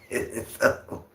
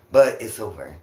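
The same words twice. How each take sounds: First: Softly whispered through a laugh. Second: Said in the usual way. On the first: Real, not acted. Streamer reassuring chat the stalking ended, whispered laugh. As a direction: breathe it out, laughing under your breath.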